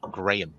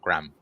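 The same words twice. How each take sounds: First: It is said as two syllables, gray-ham. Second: It is said as one syllable, gram. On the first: The intended robot name. The speaker calls it right. "gray ham" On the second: The name as in the crackers. The speaker calls it wrong. "not Graham"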